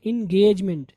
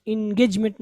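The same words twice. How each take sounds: First: एंगेजमेंट with a long gayj; correct pronunciation. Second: एंगेजमेंट with a short, clipped gej; short middle vowel in एंगेजमेंट; mispronunciation demo. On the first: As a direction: model एंगेजमेंट as in-GAYJ-ment. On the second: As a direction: say एंगेजमेंट wrongly as in-GEJ-met. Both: Shown as a demonstration. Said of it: "एंगेजमेंट में नहीं पढ़ेंगे".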